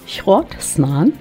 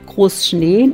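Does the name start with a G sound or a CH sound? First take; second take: CH sound; G sound. First: The name begins with a rough CH sound. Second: The name begins with a hard G sound. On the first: This is how people used to say it in Low German. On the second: This is the standard German form of the name.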